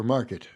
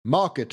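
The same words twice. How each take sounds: First: Said in the usual way. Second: "market" said as "mahket"; dropped R. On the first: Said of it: "market for market". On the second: Shown as a demonstration. Narrator echoing the senator's word, "market" without its R. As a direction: open "ah" in "market", no R. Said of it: "both missing their R sounds".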